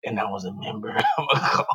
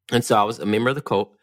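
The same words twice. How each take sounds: First: A little raspy, lower, laughing. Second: Casual. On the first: Shown as a demonstration. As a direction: rasp it out dramatically. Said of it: "say it with, like, a little raspy voice". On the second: Real, not acted. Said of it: "you said it so casually".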